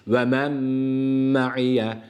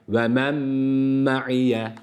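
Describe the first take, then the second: Both takes have the same delivery.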